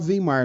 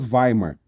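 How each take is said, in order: First: The name is said with a Portuguese pronunciation. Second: The name is said with a German pronunciation. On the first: "a gente fala português, você pode falar Weimar, não vai estar tá errado" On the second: "a pronúncia no alemão, no alemão é Weimar"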